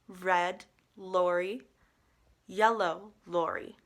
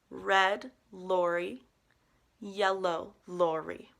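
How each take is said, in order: The two takes are said the same way.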